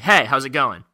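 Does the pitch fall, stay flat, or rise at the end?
fall. The pitch falls at the end. The speaker is breaking rapport. "breaking rapport, it slights down totally"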